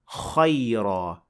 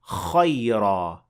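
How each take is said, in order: First: The vowel after kh is open, with unrounded lips. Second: The same.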